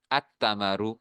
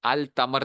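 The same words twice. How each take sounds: First: التمرو with the lam silent, said at-tamaru; التمرو with the lam merged into the t; correct Arabic. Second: التمر with the lam sounded, al-tamar; التمر as the mistake, lam spoken out; wrong version. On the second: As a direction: say التمر as al-tamar, a clear l before the t. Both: Shown as a demonstration. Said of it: "التمر نہیں کہنا".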